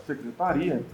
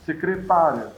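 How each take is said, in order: First: Secretaria stressed on the RI syllable. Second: Secretária stressed on the TÁ syllable. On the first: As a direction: lean on RI before the final A. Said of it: "A pronúncia deixa claro". (secretaria com a tônica no RI) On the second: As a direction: punch TÁ, letting the ending fall away. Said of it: "Porque na fala é óbvio". (secretária com a tônica no TÁ) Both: Shown as a demonstration.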